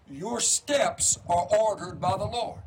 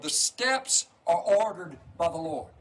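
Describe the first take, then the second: First: Slow, weighted stress on "ordered"; slow emphasis. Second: Said in the usual way. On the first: Shown as a demonstration. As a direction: lean into "ordered", drawn out and slow. Repeats scripture for emphasis.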